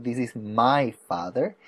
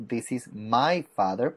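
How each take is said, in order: First: Slow, clear model line with "my" lifted; stress on my. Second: "my" lifted and drawn out, slow model line; stress on my. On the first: Teacher repeating the fix for the student, stressing "my". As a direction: say it again, leaning on "my". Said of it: "Es mi papá". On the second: Teacher correcting a student's our, stressing "my" slowly. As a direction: slowly lean on "my" so the child hears it. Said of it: "porque es tu papá". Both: Shown as a demonstration.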